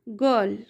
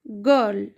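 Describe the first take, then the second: The two takes are said the same way.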